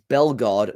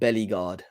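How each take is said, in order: First: The name starts with a short 'Bel' sound. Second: The name starts with 'Belly' plus an 'ee' vowel. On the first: The speaker calls it right. "it's Bellegarde" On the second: The speaker calls it wrong. "not Bellyguard"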